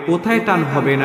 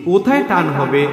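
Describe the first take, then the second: No difference in how they are said.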